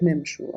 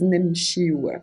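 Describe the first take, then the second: First: The word ends in a short 'shu' sound. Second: The word ends in a longer 'shiu' sound. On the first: The speaker calls it wrong. "You will still be understood if you say نمشو" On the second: The speaker calls it right. "the most correct way of saying it is نمشي و"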